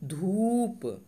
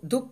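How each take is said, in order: First: The vowel is drawn out long and pushed outward. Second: The vowel is said short and clipped. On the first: The speaker calls it right. "बाहर की तरफ फेंकते हुए पढ़ेंगे" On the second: The speaker calls it wrong. "अब इसको धूप पढ़ लिए तो गलत"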